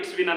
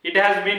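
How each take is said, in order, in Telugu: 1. 'has' పదం 'it'తో కలిసి కుదించబడుతుంది. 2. 'has' పదాన్ని పూర్తిగా అంటారు. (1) "అంటే pronunciation change" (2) "ఇట్ హ్యాస్ బీన్ అన్న, ఇట్స్ బీన్ అన్న సేమ్"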